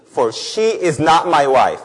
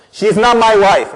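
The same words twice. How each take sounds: First: Slow, weighty reading of God's words; restrained reproach, slowly delivered; measured scripture reading. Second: Loud, raised-pitch divine rebuke; forceful, indignant scripture reading; angry God. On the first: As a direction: read it out slowly and deliberately. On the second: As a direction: thunder the scripture like a wronged husband. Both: Acted. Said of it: "Why is God so angry".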